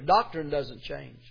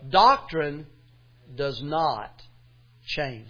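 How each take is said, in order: First: It is said at a normal volume. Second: It is said at a louder volume.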